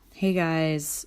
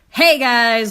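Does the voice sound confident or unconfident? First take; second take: unconfident; confident. First: It sounds hesitant and unconfident. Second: It sounds strong and confident.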